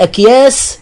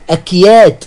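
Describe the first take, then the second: First: The word ends with an s sound. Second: The word ends with a t sound. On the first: "بالسين" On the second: "بالتاء"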